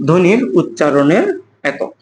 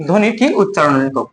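First: Slow, word-by-word dictation. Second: Said in the usual way. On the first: Shown as a demonstration. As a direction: spell it out slowly for note-taking. L'enseignant dicte la définition.

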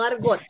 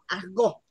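First: Said in the usual way. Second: "argot" with guttural r and silent t; French-accented "argot"; corrected French pronunciation. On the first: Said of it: "no argot". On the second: Shown as a demonstration. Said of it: "perdón".

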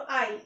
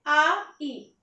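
First: আই said as one joined glide; two vowels together. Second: আ, ই drawn out as two separate sounds; vowels separated. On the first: Teacher giving students a diphthong example, joined vowels. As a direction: run আ and ই together as আই. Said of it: "একসাথে উচ্চারণ হবে". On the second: Teacher breaking a diphthong into its two letters, vowels apart. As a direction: split it slowly into a loud আ, then ই. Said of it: "দুইটা অ্যালফাবেটের একসাথে উচ্চারণ". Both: Shown as a demonstration.

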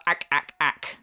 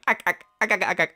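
First: Spaced-out "ack, ack, ack" laugh; mock laugh on repeated "ack"; imitated laugh. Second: Rapid-fire "ack ack ack" burst; quick machine-gun "ack" laugh; imitated own fake laugh. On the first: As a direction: mimic a staccato cackle in separate beats. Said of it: "your laugh is more of a". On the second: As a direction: rattle off a mechanical mock laugh. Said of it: "I guess I just went".

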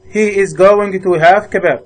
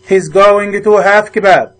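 First: Said in the usual way. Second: Each word spaced out slowly for the class; slow model reading. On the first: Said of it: "repeat at normal pace". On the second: Shown as a demonstration. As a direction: spell out "He's going to have kebab" slowly for learners. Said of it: "slow model sentence then repeat".

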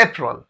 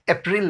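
First: अप्रैल as "AY-prul", falling at the end; April without i. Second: अप्रैल with "prin/pril", an i sound; wrong April. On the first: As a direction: say अप्रैल with "prul" for the second syllable. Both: Shown as a demonstration. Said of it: "अप्रैल नहीं".

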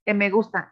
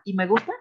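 First: "E me gusta", con E en vez de Y; leído como está escrito. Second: "Y me gusta", con sonido i al inicio; Y pronunciada i. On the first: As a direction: lee "E" con vocal e, no i. ("E me gusta", pronunciando la E escrita) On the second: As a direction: di "Y" como i, en tono de pregunta. ("¿Y me gusta?", con i y final ascendente) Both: Shown as a demonstration. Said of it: "por qué pones E".

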